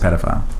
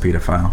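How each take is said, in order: First: It is pronounced the way people here say it. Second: It is pronounced the way people in England say it. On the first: "Here, it's pedophile" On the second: "In England, it's pedophile"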